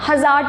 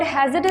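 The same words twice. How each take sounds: First: "हज़ार" with a long second vowel; mispronounced hazard. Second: Said in the usual way. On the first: Shown as a demonstration. Teacher showing how many students say the word, mispronounced "हज़ार". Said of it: "which is entirely wrong". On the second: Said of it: "हज़ार pronounce करते हैं".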